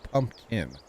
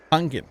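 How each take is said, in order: First: "pumpkin" said carefully as PUMP-kin; slow, careful "pumpkin" with both syllables distinct; standard pumpkin. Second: "Pumpkin" said as PUNK-in, with no M or P in the middle; "Pumpkin" with an NG sound before the K; dialect pumpkin. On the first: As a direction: sound the M and P in "pumpkin". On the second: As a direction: say "Pumpkin" like "punkin". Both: Shown as a demonstration. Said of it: "instead of pumpkin".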